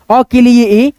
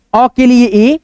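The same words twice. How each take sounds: The two takes are said the same way.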